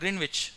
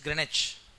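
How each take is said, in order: First: The middle W is pronounced. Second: The middle W is silent. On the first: The speaker calls it wrong. "It's not Greenwich" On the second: The speaker calls it right. "W silent. ... it is Greenwich"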